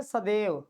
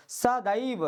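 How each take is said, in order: First: सदैव as a common sa-dev; wrong pronunciation. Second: सदैव drawn out slowly as saa-daa-iv; correct pronunciation. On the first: Teacher imitates what we usually say, mispronounced. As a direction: use plain e in the middle of सदैव. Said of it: "वो गलत है". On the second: Teacher stresses double matra for students, exaggerated careful pronunciation. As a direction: split सदैव slowly so the ai rings out. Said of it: "मतलब double पाई है ना". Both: Shown as a demonstration.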